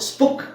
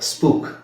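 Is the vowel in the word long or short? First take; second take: short; long. First: The vowel is short. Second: The vowel is long. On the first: The speaker calls it wrong. "ಸ್ಪುಕ್ ಅಂತ ಹೇಳಲ್ಲ" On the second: The speaker calls it right. "But ಇದು exception"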